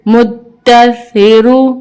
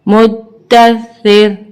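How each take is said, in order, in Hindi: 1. र भारी है और उसके बाद एक स्वर आता है। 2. र पतला है और शब्द को खत्म करता है। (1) "रॉ को ऊपर पढ़ेंगे क्योंकि रॉ के ऊपर पेश है" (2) "वक्फ की सूरत में बारीक पढ़ेंगे"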